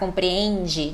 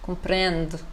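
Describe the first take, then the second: First: The final syllable is fully and clearly pronounced. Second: The final syllable is clipped and subtle. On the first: "a gente já gosta de enfatizar" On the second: "já é mais cortadinho"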